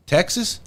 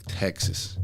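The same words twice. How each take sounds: First: Thrilled question. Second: Deflated. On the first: Hearing he is sent to Texas. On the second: Sent to Texas a second time. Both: Retold or imitated.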